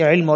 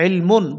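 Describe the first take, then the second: First: The word ends abruptly on a bare m. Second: The word ends with a full -un ending. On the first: The reading stops at this word. "পড়েছি ইলম" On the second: This is the full written form of the word. "ওখানে আছে ইলমুন"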